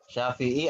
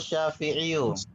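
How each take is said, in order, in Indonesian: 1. Kata ini berakhir dengan bunyi 'i' panjang. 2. Kata ini berakhir dengan suku kata tambahan 'yu'. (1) "Syafi'i atau Syafi'iyu?" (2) "Ya, Syafi'iyu"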